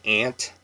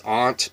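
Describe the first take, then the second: First: "aunt" said with a flat nasal a, like ant; Washington aunt. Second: Said in the usual way. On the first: Shown as a demonstration. Washington local saying her word the way her home region does. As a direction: say "aunt" to rhyme with pant. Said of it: "but we say aunt". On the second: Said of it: "say it the way we say it in Washington".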